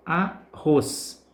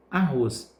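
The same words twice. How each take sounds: First: Arroz split into a, then a held ROZ; stressed syllable demo. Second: Said in the usual way. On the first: Shown as a demonstration. Teacher showing which syllable is stronger, arroz split with stress on RROZ. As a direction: break it as a... RROZ, leaning on the last syllable. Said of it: "com mais força". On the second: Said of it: "Percebe que ros é a sílaba".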